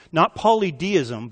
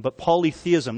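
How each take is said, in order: First: Polydeism, slow and deliberate with a d; wrong word said slowly. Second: Polytheism said plainly with a th; correct word. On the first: Preacher to his congregation, the wrong word drawn out slowly. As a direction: say polydeism slowly, stressing the d sound. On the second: Preacher correcting the word, plainly with th. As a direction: land on polytheism, th sound clear. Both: Shown as a demonstration.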